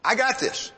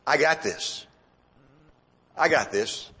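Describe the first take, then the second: First: Higher, insistent overconfidence; insistent self-assurance. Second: Low, private self-assurance; self-assured thought. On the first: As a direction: pitch it up and insist you can cope. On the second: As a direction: say it low, as if thinking to yourself. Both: Acted. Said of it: "what was going through his mind".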